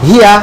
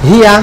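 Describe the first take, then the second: No difference in how they are said.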